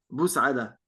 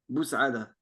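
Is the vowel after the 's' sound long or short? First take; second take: Short; Short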